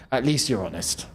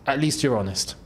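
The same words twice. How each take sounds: The two takes are said the same way.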